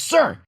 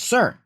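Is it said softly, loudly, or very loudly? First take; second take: very loudly; loudly. First: It is said very loudly. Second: It is said loudly.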